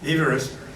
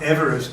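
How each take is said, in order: First: It is said with a different, less familiar pronunciation. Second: It is said the familiar way for the mountain. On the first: It is how the man himself said his name. "the pronunciation of his name is actually Everest" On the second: It names the mountain. "the person who Mount Everest is named after"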